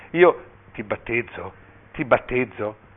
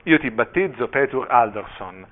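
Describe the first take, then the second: First: Slow, drawn-out solemn words; halting baptism formula. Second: Solemn proclamation, slowing on the name; mildly raised voice. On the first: Bishop stuck on the baby's name before the congregation, halting and slow. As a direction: pause expectantly between the repeated words. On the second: Bishop baptizing the child before the congregation, mildly raised voice. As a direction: pronounce the baptism firmly, only slightly raised. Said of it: "Il vescovo alzò la voce". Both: A narrator's reading.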